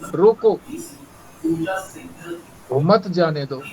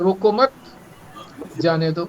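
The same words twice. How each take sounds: First: There is a pause right after 'roko'. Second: There is a pause right after 'mat'. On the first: Stop the person and do not let them go. "रोको के बाद अगर comma लगा दिया" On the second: Do not stop the person; let them go. "यदि रोको मत के बाद कॉमा लगा दिया"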